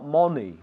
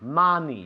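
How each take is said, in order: First: The first vowel is closer, without an open jaw. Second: The first vowel is open, like an a. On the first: The speaker calls it wrong. "Not money" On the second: The speaker calls it right. "Es como una A. Bajando la mandíbula"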